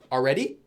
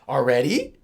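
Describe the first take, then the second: First: It is said with a plain, neutral tone. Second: It is said with a surprised tone. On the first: It simply already happened. "this one would just be already" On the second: The speaker is surprised it already happened. "in English you would say already, like that"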